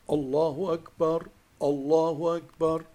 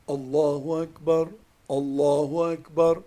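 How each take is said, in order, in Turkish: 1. İfadeler sakin bir şekilde, aralarında duraklar bırakılarak okunuyor. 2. İfadeler sakin bir şekilde, aralarında duraklar bırakılarak okunuyor.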